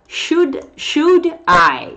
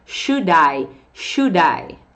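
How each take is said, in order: First: "should" and "I" said apart, higher; high, emphatic "should", then a separate "I"; words separated. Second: "should I" fused as "shu-dai"; "should I" as one joined word; linked sound block. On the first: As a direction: keep "should" and "I" as two distinct words. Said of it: "quando você junta os dois aqui". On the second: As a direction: run the d of "should" into "I". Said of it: "o bloco de som soa assim". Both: Shown as a demonstration.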